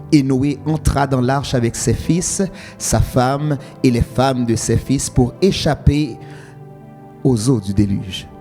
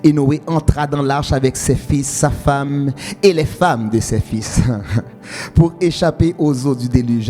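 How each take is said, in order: The two takes are said the same way.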